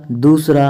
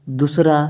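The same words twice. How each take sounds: First: दूसरा with a long "doos". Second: दूसरा with a quick "dus"; short u. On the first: Teacher correcting students, long oo in दूसरा. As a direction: stretch the first vowel of दूसरा. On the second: Teacher showing the error, short u in दूसरा. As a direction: say दूसरा with a short first vowel. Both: Shown as a demonstration. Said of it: "छोटे ऊ और बड़े ऊ".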